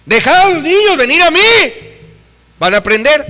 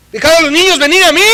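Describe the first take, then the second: First: Much higher, louder, ringing proclamation; preached scripture again; proclaiming Jesus's words. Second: Much higher, louder, fast proclamation; preached scripture; proclaiming Jesus's words. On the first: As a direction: declare it to the church. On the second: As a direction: announce it with authority. Quoting Jesus. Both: Retold or imitated.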